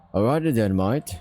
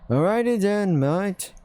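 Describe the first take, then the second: First: Said in the usual way. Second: Higher, breezy Aussie mate; bright cheery "alrighty then, mate"; Gil's voice. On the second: Acted. Dingo backing off from the rat, in a higher breezy voice.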